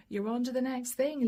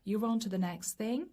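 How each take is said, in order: First: Said through a light laugh. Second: Said in the usual way. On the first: Real, not acted. Reader amused by Libra rushing ahead, laughing. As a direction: let the laugh spill into it.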